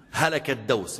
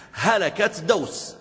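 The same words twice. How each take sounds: First: Said in the usual way. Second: High and very slow, drawn out in dread; هلكت دوس drawn out high and slow in mock dread; dramatic dread. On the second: Shown as a demonstration. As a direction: stretch it out like doom is coming. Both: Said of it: "repeats for effect".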